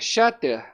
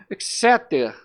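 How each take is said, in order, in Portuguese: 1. O nome é dito com pronúncia de estilo português. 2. O nome é dito com pronúncia de estilo inglês. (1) "se a gente a, a portuguesar aqui, uma coisa bem vulgar" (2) "A pronúncia aqui acho que é Exeter"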